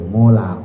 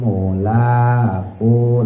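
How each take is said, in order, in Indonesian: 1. Vokal 'la' dibaca pendek. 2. Vokal 'la' dibaca panjang. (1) "kemarin juga banyak tuh" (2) "lanya panjang"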